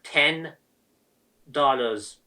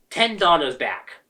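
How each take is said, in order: First: "Ten" and "dollars" said slowly, as separate beats, with a long pause between them, voice dropping low on "dollars"; slow bitter stress. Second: Said in the usual way. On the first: Real, not acted. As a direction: spell out "Ten ... dollars" word by word with bitter disbelief. Bitter repeat of refund amount.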